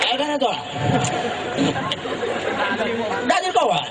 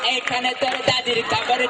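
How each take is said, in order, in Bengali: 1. এটি দুর্বল, বৃদ্ধ কণ্ঠে বলা হচ্ছে। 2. এটি মেয়েলি ভান করা কণ্ঠে বলা হচ্ছে। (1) "একজন বৃদ্ধ, আশি বছর বয়স হয়েছে" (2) "ছেলেও না মহিলাও না"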